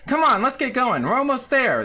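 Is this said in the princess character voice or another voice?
princess voice. It is said in the princess character's voice. The speaker calls it right.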